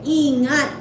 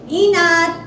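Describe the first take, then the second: First: The word has a clear 'ng' sound in the middle. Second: The word has no 'ng' sound in the middle. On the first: The speaker calls it right. "Ang gusto mong sabihin take care, ingat" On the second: The speaker calls it wrong. "Hindi niya talaga timo-pronounce ang ngat"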